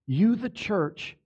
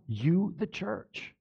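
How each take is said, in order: First: "You" leaned on, slow, before "the church"; emphatic slow "You, the church"; stress on YOU. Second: Soft and slow, almost hushed; a quiet slow "You, the church"; hushed repeat. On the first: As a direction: hit "You" firmly, then "the church". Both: Shown as a demonstration.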